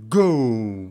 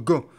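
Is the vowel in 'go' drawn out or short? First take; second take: drawn out; short. First: The vowel is drawn out and gliding. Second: The vowel is short and clipped. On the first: The speaker calls it right. "étirez le haut de go" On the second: The speaker calls it wrong. "c'est pas go"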